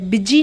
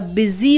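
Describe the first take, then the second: First: The middle consonant is a 'j' sound. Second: The middle consonant is a 'z' sound. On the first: The speaker calls it wrong. "बिजी नहीं होता" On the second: The speaker calls it right. "बिजी होता है, ज होता है"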